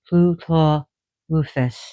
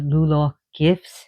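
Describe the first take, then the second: First: The name begins with a hissed tl-like sound. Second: The name begins with a plain L sound. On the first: The speaker calls it right. "it's actually" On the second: The speaker calls it wrong. "some people pronounce him as"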